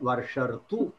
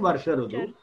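First: It is said as one joined word, Varsharthu. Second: It is said as two separate words, Varsha Rudu. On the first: The speaker calls it right. "Varsharthu is the pronunciation" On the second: The speaker calls it wrong. "Varsha Rudu you should not say"

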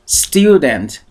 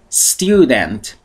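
Both takes have the same delivery.

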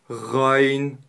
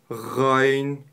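No difference in how they are said.

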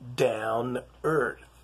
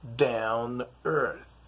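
First: The T sound after 'down' is dropped. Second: The T sound after 'down' is dropped.

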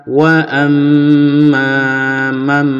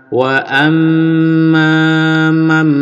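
No difference in how they are said.

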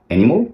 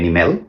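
First: The last syllable sounds like mol. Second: The last syllable sounds like mel. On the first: The speaker calls it right. "এটা হবে আসলে ওই অন্যগুলোর মতোই" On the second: The speaker calls it wrong. "এখানেও কিন্তু গলত ভুল"

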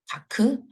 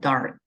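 First: It is said Korean-style with no R sound. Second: It is said with an American R sound. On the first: The speaker calls it wrong. "다크 아니고" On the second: The speaker calls it right. "R 있으니까 dark"

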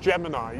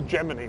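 First: The final syllable sounds like 'eye'. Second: The final syllable sounds like 'ee'. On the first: The speaker calls it wrong. "I've always said Gemini" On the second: The speaker calls it right. "You say Gemini. ... just like you pronounce, well, even in English, you pronounce bikini"

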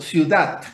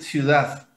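First: The word ends with a t sound. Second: The word ends with a d sound. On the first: "Como que si terminase en T" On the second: "Hacer una D final"

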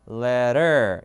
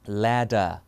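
First: American accent, flapped d and a clear r. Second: British accent, clear d and no final r. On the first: "미국 영어로는 letter 이 맞는 말이고요" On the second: "영국은 ladder 이겁니다"

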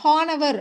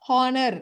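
First: The ending is split into a separate 'avar' sound. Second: The ending is a single short 'ar' sound. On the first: The speaker calls it wrong. "அப்படின்னு நம்ம படிக்க முடியாது" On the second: The speaker calls it right. "ஹானர் ஹானர் அப்படின்னு படிச்சிடறோம்"

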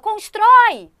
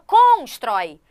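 First: The stress is on the last syllable. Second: The stress is on the first syllable. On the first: The speaker calls it right. "a gente fala constrói" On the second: The speaker calls it wrong. "A gente não fala constrói"

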